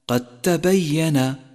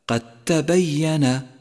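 No difference in how they are said.

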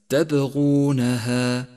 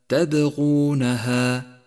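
The two takes are said the same way.

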